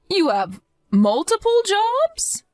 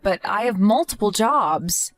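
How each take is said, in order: First: Stunned, can't believe she heard multiple jobs; mother stunned by her daughter-in-law's workload, shocked rise; shocked question. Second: Said in the usual way. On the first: Acted.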